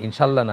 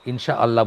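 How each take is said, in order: First: Allah runs straight on from insha, without break. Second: A glottal catch separates insha from Allah. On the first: The speaker calls it wrong. "মানে ইনশাআল্লাহ না ঠিক" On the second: The speaker calls it right. "আমরা আল্লাহটা আলাদা করে উচ্চারণ করব"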